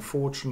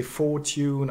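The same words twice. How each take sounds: First: FORTUNE as "FOR-chun"; coalesced form. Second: FORTUNE as "FOR-tyoon"; uncoalesced form. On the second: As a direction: say fortune with t plus y. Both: Shown as a demonstration. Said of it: "can you say fortune and fortune".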